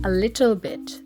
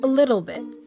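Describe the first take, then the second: First: It is spoken in a British accent. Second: It is spoken in an American accent. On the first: "British people would say" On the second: "Americans would say"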